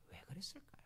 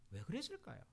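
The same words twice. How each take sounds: First: Whispered question, drawing them in. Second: Said in the usual way. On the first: Real, not acted. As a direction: breathe the question like a secret. (청중을 끌어들이는 속삭이는 질문)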